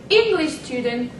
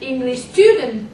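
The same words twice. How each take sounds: First: The stress falls on the first word. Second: The stress falls on the second word. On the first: "with stress on the first part" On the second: "with stress on the second part"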